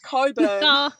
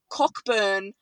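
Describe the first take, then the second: First: The name is said without a k sound. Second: The name is said with a k sound. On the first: The speaker calls it right. "but it's Coburn" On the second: The speaker calls it wrong. "you're calling it Cockburn"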